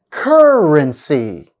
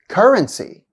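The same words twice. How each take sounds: First: "currency" slowly, first syllable stretched; slow, stressed first syllable. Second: Said in the usual way. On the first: Shown as a demonstration. Teacher showing third-from-end stress, slow demo. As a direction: lean long on the start of "currency". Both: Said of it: "stress on the third syllable".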